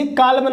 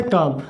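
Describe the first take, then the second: First: "काल में" with the L sounded; L wrongly pronounced. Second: "काम" with no L sound; teacher tells students the word, saying "काम" with silent L. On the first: Teacher warns students off a misreading, "काल में" with audible L. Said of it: "अब इसे काल में नहीं पढ़ेंगे". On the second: Say "काम" as one syllable, long aa straight into m. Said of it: "इसमें जो एल है वो साइलेंट है". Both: Shown as a demonstration.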